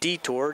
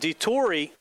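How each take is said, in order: First: The name sounds just like 'detour'. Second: The name does not sound like 'detour'. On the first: The speaker calls it right. "just like the road sign" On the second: The speaker calls it wrong. "I keep saying that wrong"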